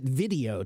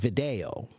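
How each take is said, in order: First: It is said with the modern English pronunciation. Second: It is said with the classical Latin pronunciation. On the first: This is how the word is said today. "we pronounce it video today" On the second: This is how the word was said in ancient times. "the Latin pronunciation was video"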